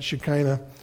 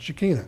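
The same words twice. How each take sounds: First: The word is said in an anglicized way. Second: The word is said in a Hebrew way. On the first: "Some people pronounce it Shekinah" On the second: "unless you're a Hebrew, and then you pronounce it Shekinah"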